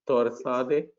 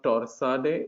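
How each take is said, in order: First: The T sound is soft and light. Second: The T sound is hard and strong. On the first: The speaker calls it right. "soften the T" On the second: The speaker calls it wrong. "It's not torsade"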